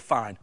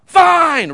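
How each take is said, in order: First: Said in the usual way. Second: Fine! yelled much higher and louder; a kid yelling Fine! in the hallway. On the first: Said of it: "He just said the word". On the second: Retold or imitated. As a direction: bark Fine! like an angry teenager. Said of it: "real loud".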